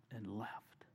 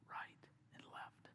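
First: Said in the usual way. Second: "Right and left" breathed out unvoiced and slower; hushed, slowed echo of "Right and left"; whispered echo. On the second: Real, not acted. Repeated as a whisper.

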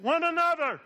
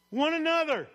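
First: "One another" echoed high and loud, same falling tune; "One another" shouted back together; congregation echo. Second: "One another" punched higher and louder, falling at the end; "One another" called out strong and high; emphatic one another. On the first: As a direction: repeat "One another" just as strongly. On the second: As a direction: lean hard on "One another". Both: Shown as a demonstration. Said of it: "Say that in the way I said it".

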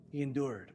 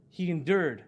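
First: Quieter, sober echo; subdued, reverent restatement; hushed repetition. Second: Said in the usual way. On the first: Real, not acted. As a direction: let it drop softly and sink in. Repeats it hushed after a pause.

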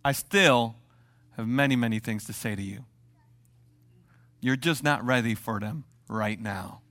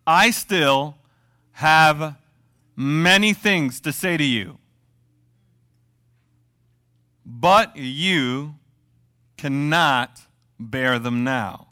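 First: Jesus gently telling his disciples to wait; gentle Jesus. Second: Loud, slow, each phrase weighted with long pauses; dramatic slow scripture emphasis; slow emphatic reading. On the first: Acted. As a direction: say it kindly to the disciples. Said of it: "he says this statement". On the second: Shown as a demonstration. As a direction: lean hard on many and cannot, pausing between phrases. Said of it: "Ready for this?".

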